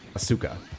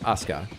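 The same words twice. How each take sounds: First: The middle u vowel is fully voiced. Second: The middle u vowel is nearly silent. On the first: The speaker calls it wrong. "not Asuka" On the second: The speaker calls it right. "is Asuka"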